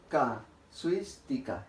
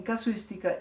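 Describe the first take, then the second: First: "Casuística" slowly in separate syllables, stressing "suís"; stress on suis. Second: Said in the usual way. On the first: Shown as a demonstration. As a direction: break up "Casuística", leaning on "suís". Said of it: "la sílaba que se ha pronunciado con mayor fuerza es suis". ("Casuística" muy despacio, con fuerza en "suís") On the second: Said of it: "la sílaba que se ha pronunciado con mayor fuerza".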